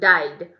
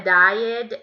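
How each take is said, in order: First: The word is said very short. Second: The word is drawn out and long. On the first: The speaker calls it right. "é bem curtinho" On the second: The speaker calls it wrong. "Não é died"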